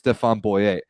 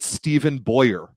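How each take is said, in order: First: The name is said with French sounds. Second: The name is said with English sounds. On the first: The speaker calls it right. "he's a Frenchman who it is clearly pronounced" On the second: The speaker calls it wrong. "people pronounce it"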